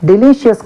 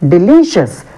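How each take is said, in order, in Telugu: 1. రెండవ సిలబుల్ మీద స్ట్రెస్ లేదు. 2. రెండవ సిలబుల్ మీద స్ట్రెస్ ఉంది. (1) "చాలా మంది ఏమంటారు డెలీషియస్ అని అంటారు. డెలీషియస్ కాదు" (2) "stress mark on second syllable from the end on ఎల్"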